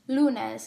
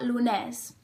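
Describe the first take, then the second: First: The stress is on the first syllable. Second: The stress is on the last syllable. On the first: The speaker calls it right. "The oral stress must be in lu" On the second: The speaker calls it wrong. "not lunes"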